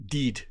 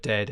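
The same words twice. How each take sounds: First: "deed" with a long ee for "dead"; Scottish "dead". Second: Said in the usual way. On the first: Shown as a demonstration. Host quoting a Scottish sitcom, "deed" with ee. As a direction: say "deed" the Scottish way, rhyming with need. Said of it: "I love the way they say". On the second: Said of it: "instead of".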